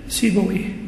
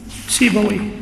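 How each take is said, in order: Both takes have the same delivery.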